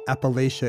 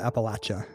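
First: The middle syllable sounds like 'lay'. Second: The middle syllable sounds like 'latch'. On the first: It marks the speaker as an outsider. The speaker calls it wrong. "for saying Appalachia" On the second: It is how insiders say it. The speaker calls it right. "instead of Appalachia"

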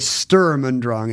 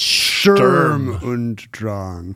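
First: The phrase is said without added weak vowels. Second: The phrase is said with added weak vowels. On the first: The speaker calls it wrong. "You're not supposed to say Sturm und Drang" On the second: The speaker calls it right. "It's Sturm und Drang"

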